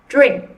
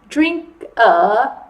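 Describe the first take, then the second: First: The word ends cleanly on the k. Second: An extra vowel is added after the k. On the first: The speaker calls it right. "you need to stop at drink and not add that extra a" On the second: The speaker calls it wrong. "they might add an extra syllable. So they might say something like drink a"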